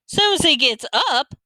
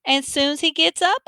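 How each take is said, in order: First: High, slow, dismayed Southern question; upset Southern echo. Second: High, witchy granny making a promise; announcing granny. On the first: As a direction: echo it back in drawn-out Southern disbelief. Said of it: "Mama sounded real upset and disappointed and Southern". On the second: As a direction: state it teasingly as the old granny, unfinished. Grandma announces, Mama echoes it. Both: A narrator's reading.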